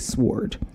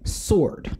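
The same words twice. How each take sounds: First: The W is pronounced at the start. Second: The W is silent at the start. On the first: The speaker calls it wrong. "people who say sword" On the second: The speaker calls it right. "it is pronounced sword. The W is silent"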